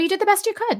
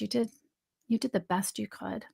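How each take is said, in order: First: It sounds flat and dismissive, without tenderness. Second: It sounds tender, sad and self-loving.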